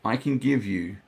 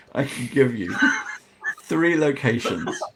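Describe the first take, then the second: First: Said in the usual way. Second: Real laughter breaking through the line. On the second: Real, not acted. Game master thrown by Fizz's antics, laughing. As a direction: try to carry on while laughing. Cracks up at what Fizz did.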